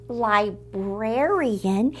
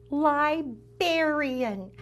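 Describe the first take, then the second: First: "librarian" drawn out with the r after the b; standard pronunciation. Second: "librarian" drawn out with bear in the middle; bear inside librarian. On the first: Host showing what the title doesn't say, "librarian" as lie-BRAIR-ee-un. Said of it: "It doesn't say librarian". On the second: Host explaining the book's pun, "librarian" said as lie-BEAR-ee-un. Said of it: "It has the word bear inside". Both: Shown as a demonstration.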